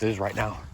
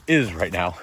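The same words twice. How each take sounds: First: Breath catching on "is right now"; catching breath midword. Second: Said in the usual way. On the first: Real, not acted. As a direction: gasp through "is right now" in pain. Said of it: "I lost my breath right there when I said "is right now". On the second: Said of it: "Sorry, I lost my breath right there when I said".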